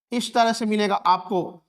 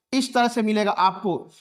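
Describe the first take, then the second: No difference in how they are said.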